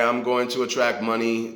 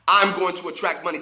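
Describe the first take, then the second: First: It is said flatly, without conviction or energy. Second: It is said confidently, with conviction and energy. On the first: The speaker does not believe it. The speaker calls it wrong. "Do you believe that? No, you don't" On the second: The speaker truly believes it. The speaker calls it right. "I believe that. I feel that. I know that"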